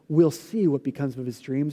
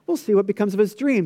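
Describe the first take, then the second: First: The tone is dark and menacing. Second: The tone is light and friendly. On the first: The speaker intends harm to the dreamer. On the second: The speaker is curious about the dreamer's future.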